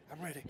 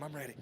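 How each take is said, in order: First: Soft and steady second "I'm ready"; relaxed, keep the face neutral; calm quiet readiness. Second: Soft, relaxed "I'm ready", flat calm; calm quiet readiness. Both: Shown as a demonstration. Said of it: "you just relax your face".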